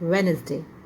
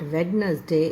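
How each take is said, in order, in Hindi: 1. बीच का d मौन रहता है। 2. बीच का d बोला जाता है। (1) "डी यहाँ पर आपका जो है साइलेंट है" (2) "इट्स नॉट वेडनसडे"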